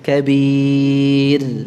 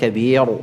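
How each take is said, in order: First: The final r is light and thin. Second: The final r is heavy and thick. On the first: The speaker calls it right. "ra-nya tipis" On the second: The speaker calls it wrong. "bukan kabir"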